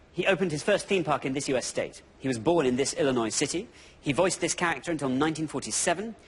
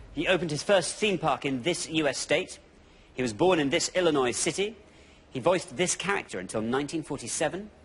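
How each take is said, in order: Both takes have the same delivery.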